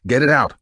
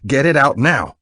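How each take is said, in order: First: Loud, firm demand. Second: Louder, higher urgent order; forceful demand. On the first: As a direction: order it done now, louder. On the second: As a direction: bark the order, no waiting. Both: A narrator's reading. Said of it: "he demanded".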